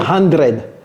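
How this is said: It is said with a French-African accent. The speaker calls it wrong.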